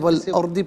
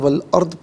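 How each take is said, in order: First: The word ends with a short vowel. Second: The word ends on a bare consonant. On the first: The reading continues without stopping. "इसे वल अर्दी पढ़ेंगे" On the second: The reader stops here. "वफ़ की सूरत में वल अर्द पढ़ा जाएगा"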